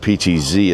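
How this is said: The last letter is said the American way.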